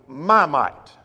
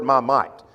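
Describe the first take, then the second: First: "my" given the weight, "might" falls; stress on my. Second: "my" leaned on, "might" falling away; weight the word "my"; stress on my. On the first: Preacher voicing God claiming his own might. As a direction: press on "my" in "my might". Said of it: "this is God speaking". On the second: Teacher pointing the class to "my" in "my might". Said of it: "you might underline the word". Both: Shown as a demonstration.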